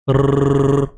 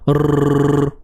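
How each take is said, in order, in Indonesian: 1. Huruf r digetarkan dengan dua ketukan. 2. Huruf r digetarkan dengan dua ketukan.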